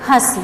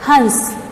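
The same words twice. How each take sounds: First: हंस with a nasalised vowel and no n, like hãs. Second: हंस with a full nasal n before the s; with anusvar. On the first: Teacher contrasting nasal marks for students, nasal vowel only. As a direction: say हंस as hãs, the a through the nose. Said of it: "यहाँ मैंने अनुनासिक का प्रयोग किया है". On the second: Teacher contrasting nasal marks for students, clear full n. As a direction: say हंस as hans, closing the nasal consonant. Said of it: "यहाँ मैंने अनुस्वार का प्रयोग किया". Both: Shown as a demonstration.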